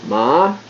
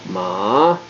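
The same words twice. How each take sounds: First: Ma high and level; high level ma in the series; first tone. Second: Ma low then rising; rising ma in the series; second tone. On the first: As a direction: hold ma high and flat. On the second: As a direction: let ma rise up. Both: Shown as a demonstration. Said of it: "those are your four tones".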